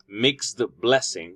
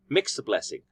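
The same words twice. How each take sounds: First: The final d sound is fully pronounced. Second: The final d sound blends into the b. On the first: The speaker calls it wrong. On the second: The speaker calls it right.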